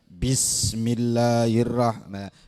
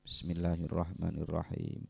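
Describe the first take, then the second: First: It is said very loudly, almost shouted. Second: It is said clearly at a moderate, quiet volume. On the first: It disturbs others praying nearby. The speaker calls it wrong. "nggak boleh terlalu keras ... Kalau terlalu keras hukumnya makruh" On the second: Only the speaker can hear it. The speaker calls it right. "sekiranya dirinya sendiri mendengar ... Jelas"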